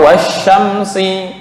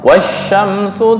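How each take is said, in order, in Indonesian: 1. Kata ini berakhir dengan vokal i. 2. Kata ini berakhir dengan vokal u. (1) "atau wasyamsi" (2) "atau wasyamsu tajri"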